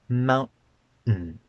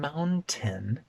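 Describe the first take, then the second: First: A glottal stop breaks the two n sounds. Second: A clear t sound is in the middle. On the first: The speaker calls it right. "It's just two n sounds broken by a glottal stop" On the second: The speaker calls it wrong. "I'm not saying mountain. There's no t in that word at all"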